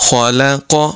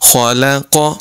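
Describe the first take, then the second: First: The L sound is light and thin. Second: The same.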